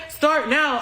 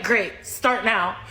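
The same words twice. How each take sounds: First: Imitating a pestering man's puzzled query; questioning echo. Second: Low, slow, firm demand; curt retort. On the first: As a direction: echo it back as if you missed it. Pestering man echoes her demand. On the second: Retold or imitated. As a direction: lay it down slowly to end the pestering. Curt retort to pestering man.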